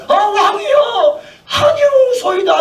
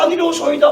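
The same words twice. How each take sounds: First: High, slow wailing protest with a laugh; 아니로소이다 cried out high and slow; pleading servants. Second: Said in the usual way. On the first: Retold or imitated. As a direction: beg the king in a mock wail. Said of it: "(servants answer king)".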